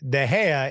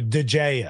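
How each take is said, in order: First: The name is said with a Spanish pronunciation. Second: The name is said with an English pronunciation. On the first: "They turned De Gea into" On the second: "the English turned into"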